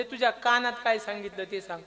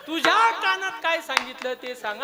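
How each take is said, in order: First: Said in the usual way. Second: High-pitched heated questioning; insistent demand. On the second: Acted. Kauravas press the brother about the secret, insistent demand. Repeated demand in acted quarrel.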